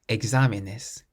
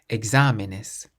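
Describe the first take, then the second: No difference in how they are said.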